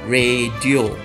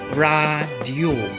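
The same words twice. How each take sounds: First: The word is said in the common everyday way. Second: The word is said in standard Malay pronunciation. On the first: The speaker calls it wrong. "一般我们都会念成radio" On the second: The speaker calls it right. "根据sebutan baku，在这里我们应该念成radio"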